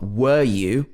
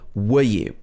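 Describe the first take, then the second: First: The vowel in 'were' is full. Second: The vowel in 'were' is a reduced schwa. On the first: The speaker calls it wrong. "Not were you" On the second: The speaker calls it right. "We would normally say were you"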